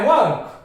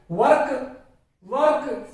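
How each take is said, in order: First: वर्क with a silent r; correct pronunciation. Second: वर्क with the r pronounced; wrong pronunciation. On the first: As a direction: say वर्क as "wuhk", falling. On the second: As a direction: say वर्क as "vark". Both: Shown as a demonstration. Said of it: "गलत लग रहा है".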